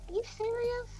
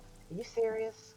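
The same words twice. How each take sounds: First: It is said in a higher voice. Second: It is said in a lower voice.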